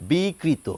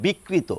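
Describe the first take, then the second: First: বিকৃত as bee-kri-to, single k; open, lengthened bi before kri in বিকৃত; undoubled formal pronunciation. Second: বিকৃত as bik-kri-to, k doubled; everyday Bengali double-k বিকৃত; natural doubled pronunciation. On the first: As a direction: say বিকৃত carefully, k not doubled. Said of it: "এই দ্বিত্বটি আসবে না". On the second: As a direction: close the first syllable of বিকৃত on k. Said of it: "স্বাভাবিক প্রবণতা অনুযায়ী যদি উচ্চারণ করি". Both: Shown as a demonstration.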